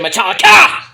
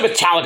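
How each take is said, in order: First: It is shouted loudly, with energy. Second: It is said flatly, without energy.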